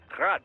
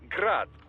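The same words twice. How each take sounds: First: The name is said with a Ukrainian pronunciation. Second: The name is said with a Russian pronunciation. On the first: This is the technically correct local name. "pronounced Grad, the Ukrainian way" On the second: This is how most people in the trade say it. "most in the business pronounce it as Grad, Russian style"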